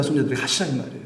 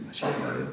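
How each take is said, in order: First: Said in the usual way. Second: 하시라 이 말이에요 said much lower and softer through a chuckle; soft laughing repeat. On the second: Real, not acted. Preacher repeating to the congregation, laughing softly. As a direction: chuckle it under your breath.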